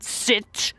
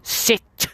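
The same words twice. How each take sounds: No difference in how they are said.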